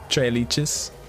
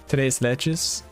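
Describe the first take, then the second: First: The first word ends in a vowel, like tray. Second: The first word ends with an s sound. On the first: "I just always say it Trey" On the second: "I'm pretty sure this is Spanish"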